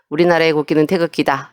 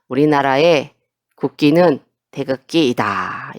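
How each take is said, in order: First: It is read straight through without breaks. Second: It is read with breaks between phrases. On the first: The speaker calls it wrong. "이렇게 읽는 게 아니라" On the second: The speaker calls it right. "이렇게 끊어서 읽어야 한다"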